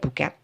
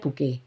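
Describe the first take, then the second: First: It is said in an Indonesian-style pronunciation. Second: It is said in an English-style pronunciation. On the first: "Kalau saya bilangnya buket" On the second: "Inggris-Inggris bacanya bouquet"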